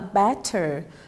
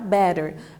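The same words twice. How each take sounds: First: Said in a British accent with strongly marked Ts. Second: Said in an American accent with softened T sounds. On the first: "Provavelmente será a sua versão britânica" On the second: "quando a gente fala em inglês americano, o som dos dois T's ele vai ser aspirado"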